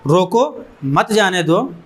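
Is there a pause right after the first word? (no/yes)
yes. There is a pause after the first word. The person should be stopped and not let go. "अगर comma लगा होगा तो एक आदमी ये पढ़ेगा"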